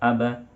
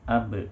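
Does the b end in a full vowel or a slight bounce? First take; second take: full vowel; slight bounce. First: The b is followed by a full vowel. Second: The b ends with a slight bounce. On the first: The speaker calls it wrong. "Tidak aba" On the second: The speaker calls it right. "dari beradu itu dia berbalik untuk memantul"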